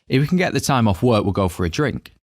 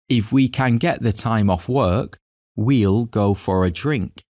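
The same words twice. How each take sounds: First: It is said at normal speed. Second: It is said really slowly.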